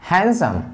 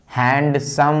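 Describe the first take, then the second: First: हैंडसम as han-sum, no d; हैंडसम said with the d dropped; silent d. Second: हैंडसम with a clear d, hand-some; हैंडसम spoken with the d in it; wrong d sounded. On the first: Teacher gives the right हैंडसम. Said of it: "डी pronunciation इसका नहीं होगा". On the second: Teacher shows the wrong हैंडसम. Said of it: "ऐसे नहीं पढ़ते". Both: Shown as a demonstration.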